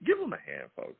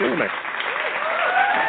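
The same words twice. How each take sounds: First: Said in the usual way. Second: High, slow, stretched-out hype call; drawn-out announcer call. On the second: Acted. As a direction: call it out like a game-show host.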